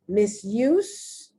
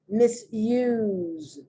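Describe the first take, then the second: First: The final consonant is a hissing S sound. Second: The final consonant is a buzzing Z sound. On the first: "the first one, the S is pronounced like an S" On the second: "The second one, the S is pronounced like a Z"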